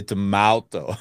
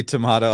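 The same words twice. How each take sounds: First: Tomato as "to-mow-to", ow in the middle; comically wrong middle vowel in tomato; joke pronunciation. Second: Tomato with an ah, "to-mah-to"; tomato with "mah" in the middle; contrasted pronunciation. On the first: Pretend. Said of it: "I say tomato". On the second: Shown as a demonstration. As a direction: say tomato the British way, broad ah. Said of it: "niche, you say tomato".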